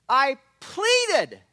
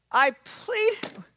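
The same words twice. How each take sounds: First: The word "pleaded" stretched and pushed out, a little louder; stress on pleaded. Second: "pleaded" cried out much higher, begging; pleading cry. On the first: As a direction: beri tekanan pada kata "pleaded", diucapkan panjang. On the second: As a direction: ucapkan "pleaded" dengan nada tinggi memohon. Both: Shown as a demonstration. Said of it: "notice the word that he uses there".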